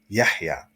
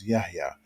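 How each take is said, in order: First: The middle h is a deep throaty h. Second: The middle h is a plain light h. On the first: The speaker calls it right. "the correct pronunciation is Yahya" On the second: The speaker calls it wrong. "we just give them the regular ha that we have in English"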